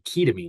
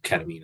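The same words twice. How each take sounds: First: The first syllable sounds like the start of ketone. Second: The first syllable is said as short 'ket'. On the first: The name comes from ketone and amine. "it's supposed to be ketamine because it's a ketone and an amine" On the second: It is the speaker's preferred habit. "but I still prefer ketamine as a pronunciation"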